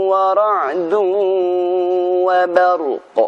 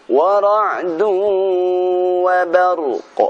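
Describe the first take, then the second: Both takes have the same delivery.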